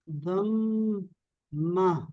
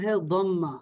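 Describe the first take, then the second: First: ضمہ drawn out very slowly in two syllables; ضمہ syllable by syllable, pause between halves; sounded out slowly. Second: Said in the usual way. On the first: Shown as a demonstration. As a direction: stretch ضمہ, holding the m, then a long final aa. Teacher sounds out the new word.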